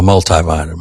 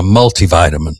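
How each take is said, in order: First: MULTIVITAMIN said mul-tie-vitamin; long I at the end of MULTI in MULTIVITAMIN; MUL-tie pronunciation. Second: MULTIVITAMIN said mul-tee-vitamin; MUL-tee pronunciation. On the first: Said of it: "I'm usually an I". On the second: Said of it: "people who would say multi". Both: Shown as a demonstration.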